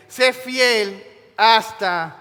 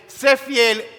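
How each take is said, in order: First: "Sé fiel" drawn out extremely slowly, louder; God's slow solemn decree; solemn command. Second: "sé fiel" hit higher and louder, quick; fiery preacher's punch on "sé fiel"; punchy emphasis. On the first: Retold or imitated. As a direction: stretch "Sé fiel hasta" word by word like a vow. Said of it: "dice el Señor a esta iglesia". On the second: Shown as a demonstration. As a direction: snap "sé fiel" out as a sharp charge. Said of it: "La idea es".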